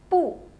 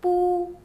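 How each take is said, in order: First: The pitch falls sharply from high. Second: The pitch stays high and level.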